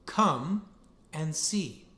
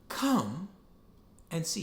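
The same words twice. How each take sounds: First: Said in the usual way. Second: Tender welcoming repeat; gentle invitation. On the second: Shown as a demonstration. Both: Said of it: "He says the phrase again".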